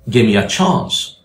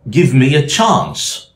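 First: The V sound before 'me' is dropped. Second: The V sound before 'me' is pronounced.

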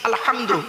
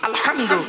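No difference in how they are said.

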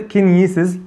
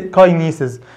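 First: The first syllable has a short 'ki' vowel. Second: The first syllable has a 'kai' diphthong. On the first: The speaker calls it right. "هي بتنطق كينيسيز" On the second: The speaker calls it wrong. "مش بتتنطق كاينيسيز"

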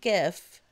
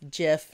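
First: The word begins with a hard G sound. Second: The word begins with a soft J sound. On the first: The speaker calls it wrong. "not GIF" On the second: The speaker calls it right. "it's actually supposed to be pronounced GIF"

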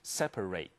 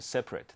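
First: The last syllable is full, like 'ate'. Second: The last syllable is reduced, like 'it'. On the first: It is used as a verb. "那个eight rate 这是当动词用" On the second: It is used as an adjective. "如果是形容词的话是念separate"

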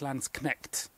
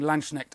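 First: The middle has a 'sk' sound, ending in 'knecht'. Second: The middle has an 'sh' sound, ending in 'neck'. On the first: It means land knight. The speaker calls it right. "I think it's Landsknecht" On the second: It means land snail. The speaker calls it wrong. "I think I've been saying Landschneck"

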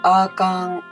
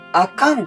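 First: The pitch stays level across the word. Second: The pitch changes across the word. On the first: The speaker calls it right. "普通に使うときは全部同じ音" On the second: The speaker calls it wrong. "あかんとはならないんですね"

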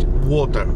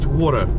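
First: It is said with a British accent. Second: It is said with an American accent. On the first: "по-английски могу говорить water" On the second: "по-американски говорить water"

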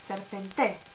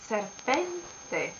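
First: The stress is off the middle syllable. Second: The stress is on the middle syllable. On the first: The speaker calls it wrong. "not serpente" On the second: The speaker calls it right. "the accent is here, pen"

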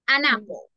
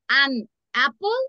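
First: The words 'an' and 'apple' are linked smoothly together. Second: The words 'an' and 'apple' are said separately with a break. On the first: The speaker calls it right. "We're gonna say an apple" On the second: The speaker calls it wrong. "No vamos a separar el artículo ni el sustantivo. No vamos a decir an apple, no"

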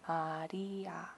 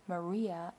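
First: The name is said with a Korean accent. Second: The name is said with an English accent. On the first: "That's how a Korean would say Maria's name" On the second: "instead of Maria"

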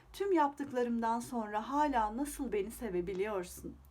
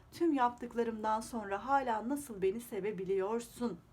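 The two takes are said the same way.

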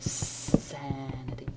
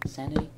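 First: The S sound at the start is long. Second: The S sound at the start is short. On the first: The speaker calls it right. "You have to keep it long. You have to keep that S" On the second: The speaker calls it wrong. "Not sanity"

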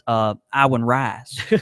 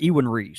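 First: The name is said in a Southern way. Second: The name is said in a usual, non-Southern way. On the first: "that's probably just Southern for, I don't know how to say that" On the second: "I've always said Ewan Reese"

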